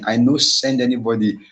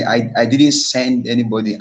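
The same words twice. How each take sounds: First: "I no send anybody" said lightly in Pidgin; Nigerian Pidgin. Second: Said in the usual way. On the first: Shown as a demonstration. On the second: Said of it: "I no send anybody".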